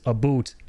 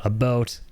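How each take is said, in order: First: "a boot" with a long oo for about; Albertan "about". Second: "about" said like "a boat"; Canadian "about". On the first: Showing another Canadian variant, Albertan about said as "a boot". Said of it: "Albertan thing". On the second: Owning up to the Canadian habit, "about" pronounced like "a boat". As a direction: give "about" a long Canadian oh. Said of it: "I'm guilty of that myself". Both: Shown as a demonstration.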